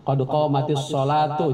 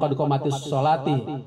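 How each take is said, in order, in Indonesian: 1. Kata terakhir berakhir dengan suku kata 'tu'. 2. Kata terakhir berakhir dengan suku kata 'ti'.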